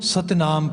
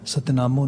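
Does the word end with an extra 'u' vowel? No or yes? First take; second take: no; yes. First: The word ends on m with no vowel. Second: The word ends with an added u vowel. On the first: The speaker calls it right. "ਸੋ ਇਸ ਨੂੰ ਸਤਿਨਾਮ ਪੜ੍ਹਦੇ ਹਾਂ ਅਸੀਂ" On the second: The speaker calls it wrong. "ਸਤਿਨਾਮੋਂ ਨਹੀਂ ਪੜ੍ਹਦੇ"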